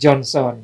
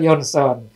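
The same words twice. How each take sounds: First: The name begins with a J sound. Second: The name begins with a Y sound. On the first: This is how English speakers say the name. "Kalau di Inggris mereka panggil Johnson" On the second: This is how Dutch speakers say the name. "Kalau saya di Belanda mereka panggil Johnson"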